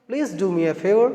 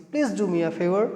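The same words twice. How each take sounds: First: Slow model phrase. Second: Said in the usual way. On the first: Shown as a demonstration. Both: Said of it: "इस तरह से बोलते हैं कि".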